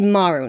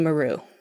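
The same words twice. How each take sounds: First: The stress is on the first syllable. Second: The stress is on the second syllable. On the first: The speaker calls it right. "Japanese words always have the emphasis on the first syllable. So it's Kobayashi Maru" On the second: The speaker calls it wrong. "not Kobayashi Maru"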